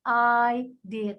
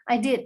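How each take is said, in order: First: The words are said slowly and separately. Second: The words are run together quickly and linked. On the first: "saya pelan-pelan" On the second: "sambung, hajar gitu ya"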